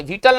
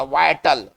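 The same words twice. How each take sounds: First: विटल said "VIT-al", with a short i; short "vi" at the start of विटल; wrong pronunciation shown. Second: वाइटल said "VAI-tal", with an "eye" sound; teacher's model वाइटल, first syllable "vai"; correct pronunciation of वाइटल. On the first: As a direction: mispronounce it as विटल, no "eye" sound. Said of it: "इसका उच्चारण करेंगे विटल नहीं". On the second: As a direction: open the first vowel of वाइटल into "ai". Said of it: "इसका उच्चारण करेंगे". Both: Shown as a demonstration.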